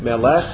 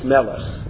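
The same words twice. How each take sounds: First: The stress is on the last syllable. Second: The stress is on the first syllable. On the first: The speaker calls it wrong. "it's not Melech" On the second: The speaker calls it right. "it's Melech"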